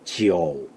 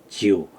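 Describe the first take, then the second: First: Long vowel, with an 'o' sound heard. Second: Short plain 'iu' vowel, with no 'o' sound. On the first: The speaker calls it right. "삼성은 음이 길죠... 지오, 지오. 이렇게 나타나요" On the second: The speaker calls it wrong. "반삼성으로 한다. 지우. 이렇게 발음하지 않아요"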